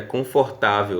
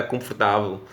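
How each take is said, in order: First: Said in the usual way. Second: "confortável" squeezed as "cõfotavew" with the vowels swallowed; teacher imitating the Portugal pronunciation; European Portuguese. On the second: Shown as a demonstration. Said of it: "lá em Portugal é confortável".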